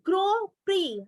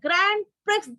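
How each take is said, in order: First: The word ends in a vowel, consonant silent. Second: The word ends with a sounded final consonant. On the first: The speaker calls it right. "This is the right pronunciation" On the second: The speaker calls it wrong. "this is not the grand prisk"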